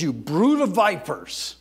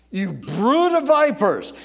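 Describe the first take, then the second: First: Slowed, raised denunciation of the Pharisees; Jesus denouncing. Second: Much louder and higher, slow and stretched; thundering rebuke. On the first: Jesus rebuking the Pharisees, a firm slow denunciation. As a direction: start the rebuke firm and deliberate. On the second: Jesus thundering at the Pharisees, a louder higher rebuke. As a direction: let the repeat thunder at them. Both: Acted. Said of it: "Now, he says".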